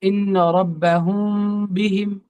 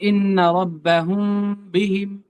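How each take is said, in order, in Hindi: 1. नासिक्य m पर होंठ सिर्फ हल्के से छूते हैं। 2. नासिक्य m पर होंठ सिर्फ हल्के से छूते हैं।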